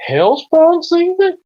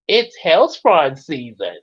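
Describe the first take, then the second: First: High, loud, drawn-out disbelief; astonished cartoon double take; incredulous question. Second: Slow, deliberate announcement of hellspawn season; measured cartoon-style assertion; firm correction. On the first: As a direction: echo it back in cartoonish shock. Cartoon season argument, startled question. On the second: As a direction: correct them with drawn-out certainty.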